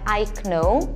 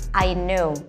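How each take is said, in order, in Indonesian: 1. Bunyi K diucapkan sebelum N. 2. Bunyi K senyap sebelum N. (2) "Ini kayaknya nggak perlu dibaca"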